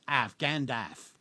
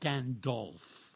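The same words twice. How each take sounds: First: The second syllable rhymes with 'half'. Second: The second syllable does not rhyme with 'half'. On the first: The speaker calls it right. "it rhymes with half, like half a sixpence. okay, so in American English, it's Gandalf" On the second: The speaker calls it wrong. "Not Gandalf"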